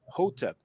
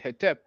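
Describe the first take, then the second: First: The first vowel is an o sound. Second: The first vowel is an e sound. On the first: This is the pronunciation kept in Coptic. "they pronounce it Hotep" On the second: This is the Egyptology convention of adding e. "some people pronounce it Hetep"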